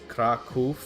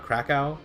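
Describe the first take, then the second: First: The final letter is said as a V sound. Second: The final letter is said as a W sound. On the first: The speaker calls it right. "W's are usually V's" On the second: The speaker calls it wrong. "this is not Krakow"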